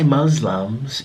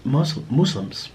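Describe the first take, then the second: First: Muslims said with "uh" and a z, MUZ-lumz; mispronounced Muslims. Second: Muslims said slowly as MOOS-limz; corrected Muslims. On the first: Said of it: "you don't say Muslims". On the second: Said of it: "you say". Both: Shown as a demonstration.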